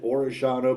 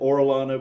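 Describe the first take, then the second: First: The middle consonant is an SH sound. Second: The middle consonant is an L sound. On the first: This is how it is said in Argentina. "because that's how they say it in Argentina" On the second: This is how it is said in the Midwest. "because we're in the Midwest"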